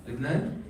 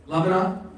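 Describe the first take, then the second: First: "Lebanon" said the Arabic way, as Libnan; Arabic "Lebanon", LIB-nan, quietly asked; Arabic pronunciation. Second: Said in the usual way. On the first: Real, not acted. Repeats country name in Arabic form.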